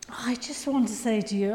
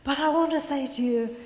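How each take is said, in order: First: Hushed, breathy aside; whisper. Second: Said in the usual way. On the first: Real, not acted. Preacher confiding to the congregation in a whisper. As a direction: lean in and whisper it.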